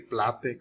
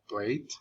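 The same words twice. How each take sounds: First: The vowel is a short a sound. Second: The vowel is a long a sound. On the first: The speaker calls it wrong. "We don't say" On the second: The speaker calls it right. "No, we say"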